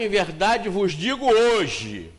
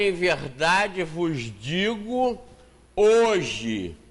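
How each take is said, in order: First: The pause comes after the word hoje. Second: The pause comes before the word hoje. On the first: The promise is made today, for paradise someday. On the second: The promise of paradise is for that very day.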